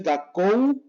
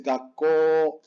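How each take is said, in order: First: Gakou with the final U clearly sounded; slow gakou with a full diphthong; wrong OU ending. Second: Gakko with a stop, then a pure long O; slow gakko ending "kooo"; long final O. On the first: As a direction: end gakou on an "oh-oo" glide. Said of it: "No es gakou". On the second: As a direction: hold the last vowel of gakko, no U. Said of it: "con doble O". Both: Shown as a demonstration.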